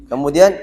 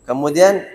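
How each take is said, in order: The two takes are said the same way.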